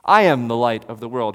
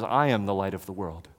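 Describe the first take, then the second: First: Plain. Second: Said in the usual way. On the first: Shown as a demonstration.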